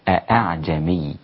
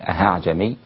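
First: Both glottal stops are pronounced fully and clearly. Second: The second glottal stop becomes a pure h sound. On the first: "التحقيق تقول الهمزتين من مخرج من نفس المخرج، فتقول أعجمي هكذا" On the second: "لا تصبح هاء خالصة فتقول أعجمي"

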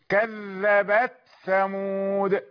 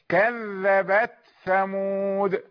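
The two takes are said the same way.

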